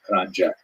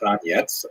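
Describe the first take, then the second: First: The name is said in its American form. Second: The name is said in its non-American form. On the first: "in America they tolerate Kranjek" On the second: "also pronounced Kranjets"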